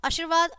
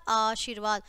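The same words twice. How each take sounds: First: आशीर्वाद said "ashirvaad", short first "a"; wrong short vowels. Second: आशीर्वाद said "aasheervaad", long first "aa"; correct long vowels. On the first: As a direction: start आशीर्वाद on a quick schwa. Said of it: "पहले हमारी अशुद्ध शब्द है". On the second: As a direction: stretch the opening vowel of आशीर्वाद. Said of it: "और फिर शुद्ध है". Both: Shown as a demonstration.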